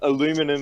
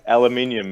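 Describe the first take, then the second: First: The word is said with four syllables. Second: The word is said with five syllables. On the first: It copies the other person's pronunciation. "as you say" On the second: It is the speaker's own usual pronunciation. "It's got an extra I"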